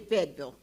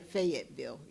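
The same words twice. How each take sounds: First: It is said the way locals say it. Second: It is said the way outsiders say it. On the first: The speaker is from the area. The speaker calls it right. "if you're from this home, you would say Fayetteville" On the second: The speaker is not from the area. The speaker calls it wrong. "You wouldn't say Fayetteville"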